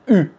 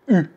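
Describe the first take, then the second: First: The vowel is a front rounded 'u' sound. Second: The vowel is a front rounded 'u' sound.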